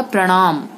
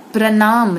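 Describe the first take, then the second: First: Said in the usual way. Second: प्रणाम with dental "n"; wrong nasal. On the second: Shown as a demonstration. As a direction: say प्रणाम as "pranaam", plain n. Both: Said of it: "नहीं होगा".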